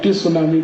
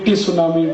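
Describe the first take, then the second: The two takes are said the same way.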